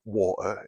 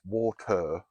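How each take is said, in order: First: "water" said casually, without the posh finish; "water" in an ordinary unposh accent; everyday pronunciation. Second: "water" slow and over-enunciated, crisp t; "water" in a careful, proper posh accent; nan's posh correction. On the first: Shown as a demonstration. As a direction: say "water" the relaxed, local way. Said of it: "It's not water, it's water". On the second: Acted. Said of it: "That's my nan coming through".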